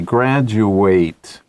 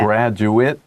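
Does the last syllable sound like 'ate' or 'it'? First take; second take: ate; it. First: The last syllable sounds like 'ate'. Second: The last syllable sounds like 'it'. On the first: It names the action of finishing training. "Same word, different uh, pronunciation. ... the verb ate" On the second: It names a person who finished training. "That's a noun. ... when it's used as a noun, ate, 念 it"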